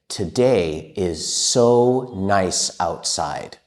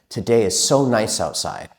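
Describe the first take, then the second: First: It is spoken at a slow pace. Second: It is spoken at the fastest pace.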